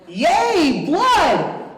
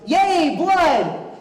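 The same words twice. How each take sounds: First: It sounds clearly more excited and energetic. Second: It sounds mildly happy and excited. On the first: "he's more excited than that" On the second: "I assume he's happy about this"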